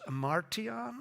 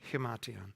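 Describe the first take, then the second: First: The word has an R sound inside. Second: The word begins with an H sound. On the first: The speaker calls it wrong. "I had an R in there" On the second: The speaker calls it right. "It's like an H"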